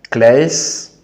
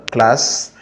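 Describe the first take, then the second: First: Class said as klɛs, English-style vowel. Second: Class said as klas, French a; French classe. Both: Shown as a demonstration. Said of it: "supporter la prononciation".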